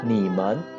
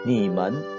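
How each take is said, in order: Both takes have the same delivery.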